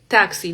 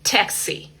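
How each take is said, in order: First: The T is soft, without a strong burst. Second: The T is strong, with an explosive burst. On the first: The speaker calls it wrong. "No decimos así como la T de nosotros como taxi, no" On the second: The speaker calls it right. "fuerte, explosivo"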